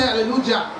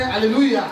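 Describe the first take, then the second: First: The j is sounded as an English J. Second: The j is sounded as a Y. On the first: The speaker calls it wrong. "You don't say" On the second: The speaker calls it right. "we say"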